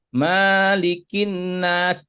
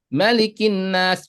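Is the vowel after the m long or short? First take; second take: long; short. First: The vowel after the m is drawn out long. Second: The vowel after the m is cut short. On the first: The speaker calls it wrong. "pendek dibaca panjang" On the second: The speaker calls it right. "yang seharusnya ma-nya pendek"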